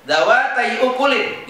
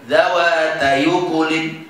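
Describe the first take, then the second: First: Said in the usual way. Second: Slow level "Dawatai ukulin" as dawata-yu-kulin; joined recitation. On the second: Shown as a demonstration. Teacher answers how to read it, slow level recitation. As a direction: link y into u of "ukulin", no glottal stop. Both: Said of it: "Gimana bacanya?".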